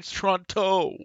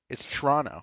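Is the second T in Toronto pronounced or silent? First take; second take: pronounced; silent. First: The second T is clearly pronounced. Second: The second T is dropped, local style.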